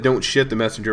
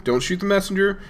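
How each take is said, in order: First: "shit" said in place of shoot; the word "shit" slipped in for shoot, said casually; a joking slip with "shit" for shoot; near slip of the tongue. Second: Said in the usual way. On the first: Shown as a demonstration. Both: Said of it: "I almost said".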